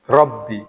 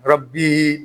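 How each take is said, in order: First: The final vowel is short. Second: The final vowel is drawn out long. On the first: The speaker calls it right. "tetap dibaca pendek" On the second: The speaker calls it wrong. "Tidak boleh dibaca panjang. Rabbi, tidak boleh"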